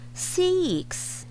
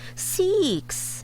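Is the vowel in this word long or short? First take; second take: long; long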